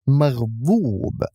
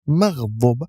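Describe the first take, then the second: First: The last vowel is lengthened. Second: The last vowel is short. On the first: The speaker calls it right. "with extending the dhamma" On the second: The speaker calls it wrong. "It's not maghdub"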